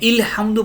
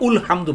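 First: The word begins with an i vowel. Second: The word begins with a u vowel. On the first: "ইলহামদু পড়েন না" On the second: "উলহামদু পড়েন না"

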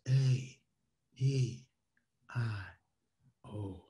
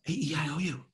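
First: It is said low and slowly. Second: It is said low and fast.

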